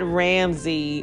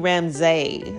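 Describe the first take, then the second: First: The last syllable sounds like 'see'. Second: The last syllable sounds like 'say'. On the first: This is the common but incorrect version of the name. The speaker calls it wrong. "My name is not Ramsey" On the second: This is the true version of the name. The speaker calls it right. "But it's really Ramsay"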